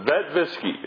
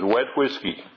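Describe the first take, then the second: First: The first word begins with a V sound. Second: The words begin with a W sound. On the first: The speaker calls it wrong. "the Germans would come and they couldn't come up with a vet whiskey" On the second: The speaker calls it right. "one of the passwords they used was wet whiskey"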